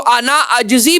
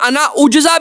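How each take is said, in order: First: The second word begins with an 'a' vowel. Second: The second word begins with a 'u' vowel. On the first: "अलिफ के ऊपर जबर है" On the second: "हमजा के ऊपर पेश है"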